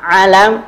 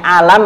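First: "alam" opening on a throaty Arabic ain; correct Arabic ain. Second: "alam" opening on a plain vowel, no throat sound; mispronounced alam. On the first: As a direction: squeeze the first A of "alam" in the throat. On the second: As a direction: say "alam" with a simple A, as learners misread it. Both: Shown as a demonstration. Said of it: "itu beda ya sama alam".

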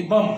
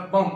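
First: "بم" wrongly said with the final B sounded; "بم" read as spelt, ending in an audible B; wrong pronunciation. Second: Said in the usual way. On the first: Shown as a demonstration. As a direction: voice the silent B after the M in "بم". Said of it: "غلط اس کی pronunciation اگر ہم کریں". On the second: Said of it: "درست pronunciation ہے وہ ہے".

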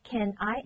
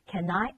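First: Said in the usual way. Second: "can I" run together, N gliding into I; linked pronunciation. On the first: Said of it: "这个N和I可以连读". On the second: Shown as a demonstration. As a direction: link the N of "can" onto "I". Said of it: "可以直接连读成".

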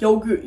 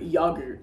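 First: Said in the usual way. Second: "yogurt" with a short British first vowel; British pronunciation. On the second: Shown as a demonstration. Mocking how British people talk, "yogurt" said with a short first vowel. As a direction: say "yogurt" as YOG-urt, the British way. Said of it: "British people gotta be clowning".

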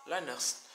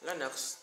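Both takes have the same delivery.

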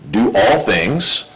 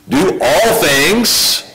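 First: Said in the usual way. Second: Preacher hammering the verse home; emphatic repeat. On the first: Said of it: "repeats the verse more forcefully". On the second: Shown as a demonstration. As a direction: do all things, slow, higher and stretched out. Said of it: "second take of the same words".

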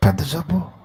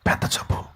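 First: Said in the usual way. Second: పెద్ద జబ్బు whispered, breath only; gossip whisper. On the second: Retold or imitated. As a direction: hiss పెద్ద జబ్బు as a secret. (పెద్ద జబ్బు గుసగుసగా) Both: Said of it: "చెవులు కొరుక్కుంటారు వాడికి వినపడేటట్టు".

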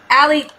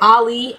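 First: "Allie" said AL-ee; name pronunciation. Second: "Ali" said AH-lee; name pronunciation. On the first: Thanking newest subscriber, "Allie" said AL-ee. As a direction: say "Allie" with a short A, AL-ee. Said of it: "or Ali, I'm sorry". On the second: Correcting newest subscriber's name, "Ali" said AH-lee. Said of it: "I'm sorry". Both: Shown as a demonstration.

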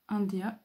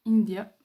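First: "India" said the French way, /ɑdja/, nasal first vowel; Frenchified English. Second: "India" said the English way, /indja/, with a clear "in", louder; English pronunciation. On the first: Reading a stamp to viewers, French-style pronunciation. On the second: Correcting herself for viewers, English-style pronunciation. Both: Shown as a demonstration.

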